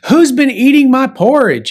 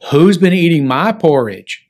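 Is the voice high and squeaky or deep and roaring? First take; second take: squeaky; roaring. First: It is said in a high, squeaky voice. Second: It is said in a deep, roaring voice.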